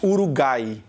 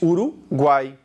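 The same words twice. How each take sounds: First: The u after the g is silent. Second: The u after the g is pronounced. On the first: The speaker calls it wrong. "Você não diz Uruguai" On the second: The speaker calls it right. "Esse U aqui tem pronúncia"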